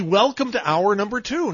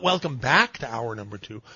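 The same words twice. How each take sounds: First: "Welcome to hour number two" said firmly with no "back"; correct phrasing. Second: "Welcome back to hour number two" said with a light push on "back"; wrong phrasing. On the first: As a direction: stress "Welcome to" cleanly, skip "back". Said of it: "I do it right". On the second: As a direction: tip "back" as the wrong word. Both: Shown as a demonstration.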